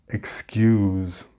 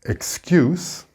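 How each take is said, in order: First: The final consonant is a buzzing z sound. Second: The final consonant is a hissing s sound. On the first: It is the verb. "This is the verb pronunciation with the z sound" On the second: It is the noun. "excuse is the noun pronunciation"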